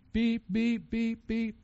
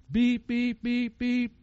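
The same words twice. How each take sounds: First: Imitated beeper. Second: High-pitched electronic beep beep; imitated beeper. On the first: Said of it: "Old creature". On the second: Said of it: "The old creature beeper went off".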